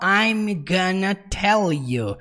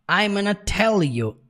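First: "I'm gonna" is said fully. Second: "I'm gonna" is heavily contracted. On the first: "ele não fala I'm gonna tell you" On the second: "fica ainda mais contraído. Fica algo assim, ó"

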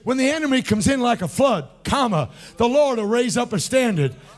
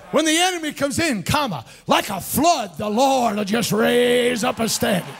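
First: The pause comes after the word flood. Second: The pause comes after the words comes in.

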